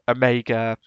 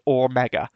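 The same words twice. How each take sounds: First: The first vowel sounds like 'oh'. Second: The first vowel sounds like 'or'. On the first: This is the usual English pronunciation. "but in English, we tend to pronounce it as" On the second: This is the strict Greek pronunciation. "So strictly in Greek, you would pronounce it as"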